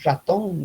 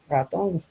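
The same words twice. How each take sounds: First: The R is said the La Paz way. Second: The R is said like a French R.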